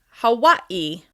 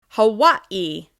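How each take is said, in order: No difference in how they are said.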